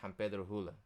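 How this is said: The s sounds are pronounced as h.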